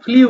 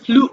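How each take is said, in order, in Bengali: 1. 'oo' স্বরের আগে একটি 'y' ধ্বনি আসে। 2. 'l' এর পরে সাধারণ 'oo' স্বর আসে। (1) "এটা কিন্তু আমরা ফ্লিউ বলে অভ্যস্ত" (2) "বাট এটা হবে ফ্লু"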